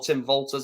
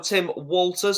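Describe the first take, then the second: First: The surname begins with a V sound. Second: The surname begins with a W sound. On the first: "which makes a V" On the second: "W sound"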